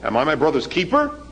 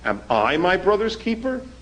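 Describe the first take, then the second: First: The word 'I' carries no special stress. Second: The word 'I' carries strong stress. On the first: "Usually we say" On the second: "But what if the accent is on I?"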